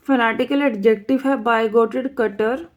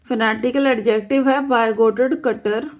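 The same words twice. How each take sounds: The two takes are said the same way.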